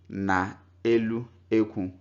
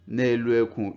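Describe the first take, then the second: First: Na is said in full before elu. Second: The vowel of na is dropped before elu. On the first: This is an acceptable way for beginners. "you can also pronounce it as if it's written in full" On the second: This is how native speakers say it. "Native speakers will say ite nọ n'elu ekwu"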